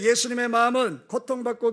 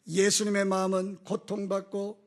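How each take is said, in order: First: It is spoken at a normal pace. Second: It is spoken slowly and deliberately.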